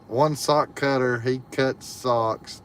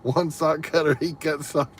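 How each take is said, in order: First: It is said at normal speed. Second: It is said as fast as possible.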